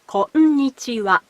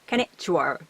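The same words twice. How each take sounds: First: Each of the five syllables is said separately. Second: The syllables run together and blend. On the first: The speaker calls it right. "but konnichiwa. It has five syllables" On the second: The speaker calls it wrong. "It's not konnichiwa"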